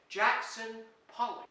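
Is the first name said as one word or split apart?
one word. The first name is said as one smooth word. It names the painter.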